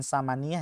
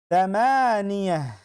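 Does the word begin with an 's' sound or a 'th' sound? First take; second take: s sound; th sound. First: The word begins with a plain 's' sound. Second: The word begins with a soft 'th' sound. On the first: The speaker calls it wrong. "Bukan samaniyah ya" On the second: The speaker calls it right. "pakai sa"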